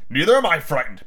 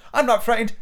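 First: Adult comeback near ordinary pitch; match the child's denial; defensive father. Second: Put-on high-pitched boy protesting; defiant child. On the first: Acted. Father answers son's boast, defensive. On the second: Son denies being scared, defiant.

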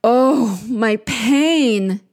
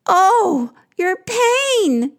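First: Drawn-out moan of pain. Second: Very high, loud wailing moan; echoed moan. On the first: Queen of the underworld in pain, moaning. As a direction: moan it out, lightly acted. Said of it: "Ereshkigal is moaning". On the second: Two creatures echoing the queen's pain, moaning high. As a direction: moan back in high-pitched sympathy. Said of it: "moan back". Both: Acted.

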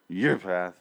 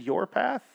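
First: Mock grunting mumble; grunted imitation. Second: YOUR PATH said higher, rising like a question; puzzled clarification. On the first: Man imitating a TV character's hard-to-hear reply, grunted. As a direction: grunt it out, words run together. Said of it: "'cause she grunts". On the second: Retold or imitated. Reviewer guessing at a grunted line, YOUR PATH questioning and rising. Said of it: "I think she said".

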